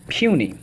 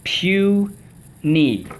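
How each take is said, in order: First: Said in the usual way. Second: PUNY stretched into two high, separate beats; syllable by syllable. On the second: Shown as a demonstration. Teacher leading the class in a drill, syllable by syllable. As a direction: sound out PUNY as pew, then knee. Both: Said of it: "Puny, let's go".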